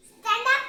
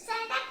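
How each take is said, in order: First: Louder, sharper teacher's order; stern command. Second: Said in the usual way. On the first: Pretend. Pretend teacher ordering the pupil up, louder. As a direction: bark it like a strict teacher. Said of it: "pretend teacher commands louder". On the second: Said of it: "pretend teacher commands".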